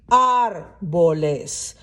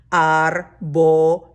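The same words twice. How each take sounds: First: Árboles slow, weight on ÁR; stress on first syllable. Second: Árboles slow, lower and linked; smooth linked syllables. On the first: Teacher pointing out the stress of Árboles, slowly. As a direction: lean on the Ár of Árboles. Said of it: "look at how it has shifted". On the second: Teacher modelling the smooth plural Árboles, slowly linked. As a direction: glide Árboles together smoothly. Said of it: "you have to link". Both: Shown as a demonstration.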